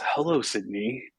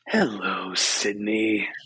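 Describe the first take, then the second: First: It is said in his ordinary speaking voice. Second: It is said in a put-on menacing character voice.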